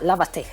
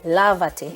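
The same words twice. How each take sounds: First: The stress is on the second syllable. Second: The stress is on the first syllable. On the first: The speaker calls it wrong. "and not lavate" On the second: The speaker calls it right. "we want to maintain the stress where it was before"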